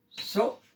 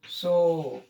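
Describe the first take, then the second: First: सो with a short, cut-off "o"; short vowel. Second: सो with the "o" held long; long vowel. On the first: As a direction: say "सो" as one brief beat. ("सो" छोटा, बिना खींचे) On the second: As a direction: stretch out "सो". ("सो" लंबा खींचकर) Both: Shown as a demonstration. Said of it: "बड़ी मात्रा".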